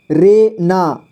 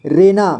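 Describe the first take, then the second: First: रे ना as two separate sounds; syllable by syllable. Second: Said in the usual way. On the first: Shown as a demonstration. Teacher showing learners रे ना, sounded out apart. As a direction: sound out रे, then ना. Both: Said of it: "इसे पढ़ेंगे".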